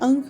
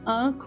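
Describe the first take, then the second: First: The first vowel is short. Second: The first vowel is long. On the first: Other places say it this way. "कहीं अंख बोलते हैं" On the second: Some places say it this way. "कहीं आंख बोलते हैं"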